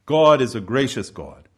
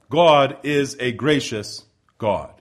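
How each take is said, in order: First: Said in the usual way. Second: God is a gracious God, each word drawn out slowly; slow and weighty. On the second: Shown as a demonstration. Preacher to congregation, slow deliberate God is a gracious God.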